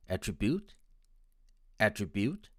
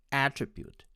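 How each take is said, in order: First: "attribute" stressed on the third syllable, at-tri-BUTE. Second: "attribute" stressed on the first syllable, AT-tri-bute. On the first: Teacher demonstrating the Indian stress, "attribute" stressed on BUTE. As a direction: lean on the last syllable of "attribute". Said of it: "with the stress on the third syllable". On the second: Teacher demonstrating the American stress, "attribute" stressed on AT. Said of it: "with the stress on the first syllable". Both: Shown as a demonstration.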